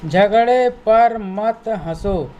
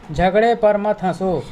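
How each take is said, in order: First: Slow model reading. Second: Said in the usual way. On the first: Shown as a demonstration. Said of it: "teacher slow model reading". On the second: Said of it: "repeated normally".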